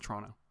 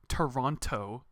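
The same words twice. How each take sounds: First: The second t sound is left out. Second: The second t sound is clearly pronounced. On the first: "just get rid of the T" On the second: "it's not Toronto"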